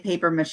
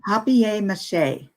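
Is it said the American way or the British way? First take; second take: American; British. First: It is said the American way. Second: It is said the British, French-like way.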